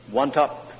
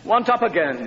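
First: Put-on tired child. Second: Put-on much higher, louder whiny child demand; whining child. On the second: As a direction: play the toddler escalating his demand. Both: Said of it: "he said".

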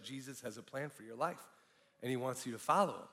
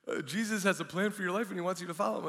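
First: Soft, low, matter-of-fact retelling; stranger's first delivery. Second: Higher, hurried, hesitant repeat; sheepish. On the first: Stranger stopping a man leaving the nightclub, soft and low-key. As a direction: voice the stranger gently and quietly. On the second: Stranger repeating himself to a man who seems mad, sheepish. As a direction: rattle it off sheepishly. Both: Retold or imitated. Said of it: "he said it a little more sheepishly".

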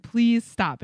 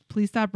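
First: Louder, firmer "Please stop"; insistent, louder "Please stop". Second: Said in the usual way. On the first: Retold or imitated. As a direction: say it with more force. Repeated plea, louder.

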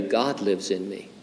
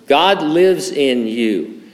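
First: Softly, like sharing a secret; hushed secret. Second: "God lives in you", slow, with the weight on "lives"; slow emphasis. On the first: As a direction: drop the voice for a confidence. I have a secret to tell you. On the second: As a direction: lean into "lives", drawing each word out. Repeats the key line emphatically. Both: Shown as a demonstration.

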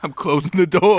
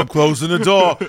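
First: Loud, higher, drawn-out announcement; dramatic exit. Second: Dramatic echo. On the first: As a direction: slam the door on the game. Dramatic persona line. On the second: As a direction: repeat it with a swaggering finality. Echoes the same line. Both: Pretend.

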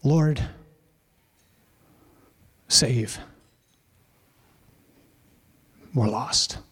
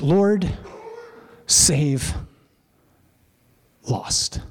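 First: Lord, save, we're lost, much softer and lower, with long pauses, fading to a breath; desperate hushed cry. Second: Lord, save, lost as three separate words with pauses between, the last one almost whispered; three clipped words. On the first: Preacher to congregation, voicing the disciples' plea, hushed and desperate. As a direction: let the plea sink into quiet desperation. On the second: Preacher to congregation, showing the three-word cry in separate beats. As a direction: spell out the three Greek words one at a time.

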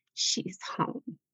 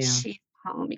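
First: Hushed whisper, much softer. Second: Lower, softer, rising tenderly. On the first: Mother recalling her daughter's words, whispered. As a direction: breathe it like a tender secret. Daughter quoted again, tenderly. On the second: Mother recalling her daughter's words, soft and low. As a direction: let it fall hushed and gentle. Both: Retold or imitated.

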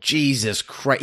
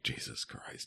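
First: Drawn-out incredulous Jesus Christ, rising at the end; slow disbelief. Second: Breathy whispered Jesus Christ, barely audible; whispered mock dismay. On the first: Real, not acted. Hearing the actor was six, slow stunned disbelief. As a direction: stretch it out in real disbelief. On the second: Imagining the cast reacting, a hushed mock gasp. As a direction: mouth it under your breath in mock horror. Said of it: "anybody was like".

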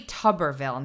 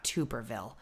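First: "Tuberville" with a short vowel, like "tubber"; "Tuberville" opening with the vowel of "tub"; correct pronunciation. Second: "Tuberville" with a long oo, like "tuber"; "Tuberville" opening like "too"; wrong pronunciation. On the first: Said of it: "It's actually Tuberville, not Tuberville". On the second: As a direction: say "Tuberville" as TOO-ber-vil, low and soft. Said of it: "not Tuberville". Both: Shown as a demonstration.

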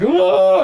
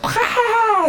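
First: Loud, high cry of alarm; mock panicked yell. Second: Very high, screechy army yell; mock battle cry. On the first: Philistine army going nuts and running off, mock panic. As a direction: imitate an army yelling as it flees. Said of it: "the Philistine army goes nuts". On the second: Israel army going nuts as they attack, mock war cry. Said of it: "the Israel army goes nuts".

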